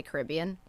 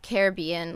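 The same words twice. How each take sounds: First: Caribbean stressed on bee, kar-ib-BEE-an; Caribbean for the place. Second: Caribbean with stress on rib, ka-RIB-ee-an; Caribbean said two ways. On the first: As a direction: say Caribbean stressing the third syllable. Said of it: "when you talk about the place". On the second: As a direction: say Caribbean stressing the second syllable. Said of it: "Do you also say". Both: Shown as a demonstration.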